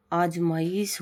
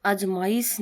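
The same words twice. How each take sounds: First: आजमाइश with a lengthened ee; slow आजमाइश, holding the ee; correct form of आजमाइश. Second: आजमाइश with a short i before the last sound; wrong form of आजमाइश. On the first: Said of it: "होता है". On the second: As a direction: say आजमाइश with a brief i. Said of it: "नहीं होता". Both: Shown as a demonstration.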